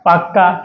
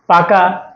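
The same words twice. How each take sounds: First: পাক্কা with the doubled k held. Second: Said in the usual way. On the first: Shown as a demonstration. Teacher showing the doubled consonant in পাক্কা. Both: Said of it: "দ্বিত্ব ব্যঞ্জন একদম সহজ".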